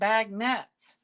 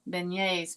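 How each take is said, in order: First: It is pronounced like 'bag nuts'. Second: It is pronounced like 'ben-yays'. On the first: The speaker calls it wrong. "I kept saying bag nuts" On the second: The speaker calls it right. "Chad kept saying there beignets"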